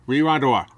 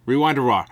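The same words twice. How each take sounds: No difference in how they are said.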